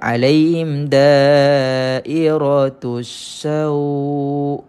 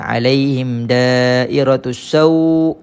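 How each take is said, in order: First: The reading is said softly and smoothly. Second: The reading is said without softening. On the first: The speaker calls it right. "Kalau nak lembutkan" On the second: The speaker calls it wrong. "Kalau kita tak lembutkan bacaannya jadi gini eh"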